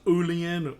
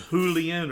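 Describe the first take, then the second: First: The word begins directly with a vowel. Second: The word begins with an H sound. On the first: "a silent B" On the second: "B was pronounced as an H"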